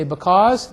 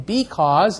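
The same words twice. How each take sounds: First: "because" with a quick, reduced "buh" first syllable; reduced first vowel. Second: "because" with a long, full "bee" first syllable; full E vowel. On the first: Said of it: "taken the, the lo-, the E vowel". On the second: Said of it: "the E vowel, instead of saying". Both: Shown as a demonstration.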